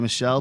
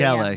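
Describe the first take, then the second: First: The name is pronounced the English way. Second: The name is pronounced the Italian way. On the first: The speaker calls it wrong. "I didn't say Michelle" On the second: The speaker calls it right. "because he's Italian"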